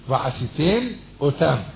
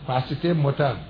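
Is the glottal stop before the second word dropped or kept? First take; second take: kept; dropped. First: The two words are kept apart with a glottal stop. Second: The words run together and the glottal stop disappears. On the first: The speaker calls it right. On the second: The speaker calls it wrong.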